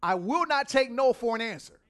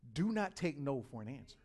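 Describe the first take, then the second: First: Loud, forceful refusal, higher; personified Aggressive, firm and loud. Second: Said in the usual way. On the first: Acted. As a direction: insist like you won't back down. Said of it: "Aggressive says". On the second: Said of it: "repeats the line plainly".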